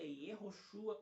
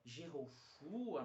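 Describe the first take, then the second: First: The name begins with a Y sound. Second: The name begins with a J sound. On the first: The speaker calls it right. "o mais próximo mesmo seria" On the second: The speaker calls it wrong. "mas não existe esse som de J no hebraico"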